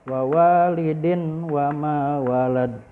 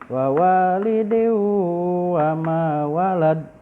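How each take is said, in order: First: The n sound is pronounced clearly before w. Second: The n merges into a held, nasal w. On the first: The speaker calls it wrong. "Tidak boleh dibaca" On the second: The speaker calls it right. "harus masuk ke huruf waw dan agak ditahan atau mendengung"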